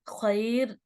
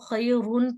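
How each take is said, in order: First: The r is light and the word ends there. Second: The r is heavy and followed by -un. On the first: The reader stops at the end of the verse. "रॉ को र नहीं करेंगे, बस खैर खैर नॉर्मल पढ़ेंगे" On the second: The word is read on without stopping. "रॉ को मोटा पढ़ते"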